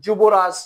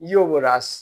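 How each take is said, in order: First: The word begins with a 'j' sound. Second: The word begins with a 'y' sound.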